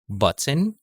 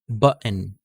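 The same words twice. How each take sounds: First: The middle t is a full t sound. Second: The middle t is a glottal stop. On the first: "we're going to read again using a normal T sound" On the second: "Totally wala siyang T sound, pinapalitan natin siya ng uh sound"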